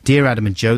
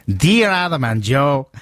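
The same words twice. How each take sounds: First: It is read in his ordinary voice. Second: It is read in a put-on Mexican accent.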